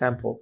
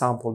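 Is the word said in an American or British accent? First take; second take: American; British. First: It is said in an American accent. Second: It is said in a British accent. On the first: "American বলে স্যাম্পল" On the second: "ব্রিটিশরা বলে স্যাম্পল"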